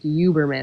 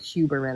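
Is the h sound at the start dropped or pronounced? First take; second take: dropped; pronounced. First: The opening h sound is dropped. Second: The opening h sound is pronounced. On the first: "they just wouldn't say H" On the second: "instead of"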